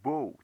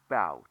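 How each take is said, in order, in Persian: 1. این مصوت مثل 'o' در go است. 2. این مصوت مثل 'ow' در cow است. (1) "این کلمه بو تلفظ میشه دیگه، باو تلفظ نمیشه" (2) "باو تلفظ میشه"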